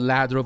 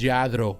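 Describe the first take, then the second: First: The name is said in an anglicized way. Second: The name is said in a Spanish-style way. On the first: This is how people commonly say it. The speaker calls it wrong. "People call it ladro" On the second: This is how the Spanish company's name is really said. The speaker calls it right. "the real way to say it is lladro"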